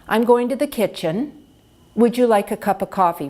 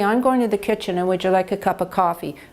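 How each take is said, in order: First: It is spoken a little louder and slower. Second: It is spoken quieter and faster. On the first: The speaker calls it right. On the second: The speaker calls it wrong.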